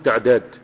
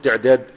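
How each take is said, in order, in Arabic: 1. يُنطق المقطع الأول بحركة 'a'. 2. يُنطق المقطع الأول بحركة 'i'. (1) "هتقول تعداد" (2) "مش هتقول تعداد"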